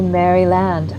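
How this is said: It is said the way British broadcasters say it. This is how others pronounce it. The speaker calls it wrong. "They say Maryland"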